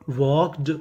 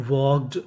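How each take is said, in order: Both takes have the same delivery.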